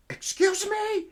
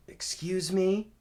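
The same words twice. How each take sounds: First: Very high, loud, falling at the end; shocked indignation. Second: Higher, louder, slow questioning rise; taken aback. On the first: Officer stunned by the caller's rant, shocked indignation. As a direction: imitate an officer aghast, voice shooting up. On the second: Officer reacts to caller's odd greeting, taken aback. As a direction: imitate a puzzled officer, voice lifting at the end. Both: Retold or imitated.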